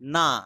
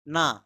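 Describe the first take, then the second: No difference in how they are said.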